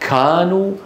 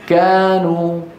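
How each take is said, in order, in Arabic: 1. في الكاف انفجار قوي من الهواء. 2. في الكاف نفخة هواء خفيفة فقط. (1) "يبالغون في همس الكاف" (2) "في همس لكنه خفيف"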